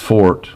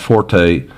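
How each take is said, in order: First: The word is said as one syllable, 'fort'. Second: The word is said as two syllables, 'for-tay'. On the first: The speaker calls it right. "It's pronounced fort" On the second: The speaker calls it wrong. "not forte"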